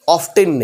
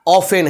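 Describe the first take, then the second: First: The t sound is clearly pronounced. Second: The t sound is silent. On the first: The speaker calls it wrong. "ऑफ्टेन नहीं" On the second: The speaker calls it right. "Correct pronunciation ऑफेन है"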